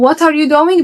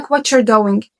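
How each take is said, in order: First: "what are you doing" with every word sounded out; unlinked pronunciation. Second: "what you're doing" blended into "whatcher doing"; accented linked pronunciation. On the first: Teacher quoting a student before accent training, "what are you doing" unreduced. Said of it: "فتلاقيه بدل ما بيقولك". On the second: Teacher quoting an accent-course student, "what you're doing" linked as "whatcher doing". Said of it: "بيقولك what you're doing". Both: Shown as a demonstration.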